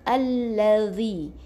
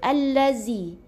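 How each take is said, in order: First: The middle consonant is a soft 'dh' sound. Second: The middle consonant is a buzzing 'z' sound. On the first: The speaker calls it right. "Yang ni zal yang nipis" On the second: The speaker calls it wrong. "Ada yang tersalah sebut sebelum ni, mungkin baca"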